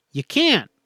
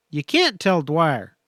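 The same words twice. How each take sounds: First: A sharp, higher forceful "can't"; ground out. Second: Slow, heavy words, "can't" pressed down; ground out slowly. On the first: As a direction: cut her off hard on "can't". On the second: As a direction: grind "can't tell Dwyer" out slowly. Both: A narrator's reading. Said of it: "he ground out".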